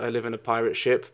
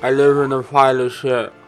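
First: The phrase is spoken clearly and normally. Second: The phrase is spoken with distorted, popping sounds.

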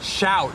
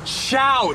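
First: It is said somewhat louder than before. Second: It is said very loudly, almost shouted.

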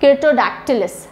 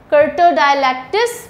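First: The middle sounds like 'dactyl' before the ending. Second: The middle sounds like 'dialac' before the ending. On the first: The speaker calls it right. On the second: The speaker calls it wrong.

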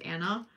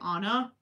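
First: The name sounds unlike the Frozen character's name. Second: The name sounds like the Frozen character's name. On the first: The speaker calls it right. "usually people would get that my name is Anna" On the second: The speaker calls it wrong. "they'll pronounce it Anna, like, from Frozen"

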